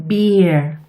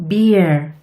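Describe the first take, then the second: The two takes are said the same way.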